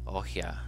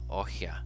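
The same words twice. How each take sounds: First: The middle consonant is a breathy h sound. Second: The middle consonant is a breathy h sound.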